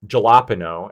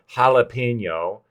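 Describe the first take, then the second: First: Jalapeno with an English j sound, as in jam; plain English pronunciation. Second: Spanish-accented jalapeno, ha-la-pe-nyo. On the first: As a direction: jalapeno said the way an English speaker would, hard j. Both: Shown as a demonstration. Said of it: "putting on, like, the Spanish accent".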